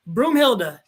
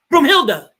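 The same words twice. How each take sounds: First: Said in the usual way. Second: Broomhilda said loud and punchy, a little higher; emphatic name. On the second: Shown as a demonstration. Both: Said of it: "I forgot her damn name".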